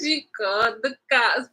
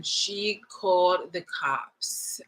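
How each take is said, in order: First: Words breaking out through laughter; laughing. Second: Very slow, drawn-out telling; slow reveal. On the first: Apologizing to viewers for laughing at the story, laughing. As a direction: laugh as you repeat the twist. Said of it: "I'm sorry, I laughed". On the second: Telling viewers the woman called the cops, slow reveal. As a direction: stretch out each word for the reveal. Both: Real, not acted.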